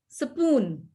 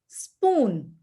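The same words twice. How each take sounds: First: An extra vowel is slipped between the first consonants. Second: The first two consonants run together with no vowel. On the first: This is how non-native speakers say it. The speaker calls it wrong. "the other speakers will say between S and P" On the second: This is how native English speakers say it. The speaker calls it right. "that's how the English speakers will call this"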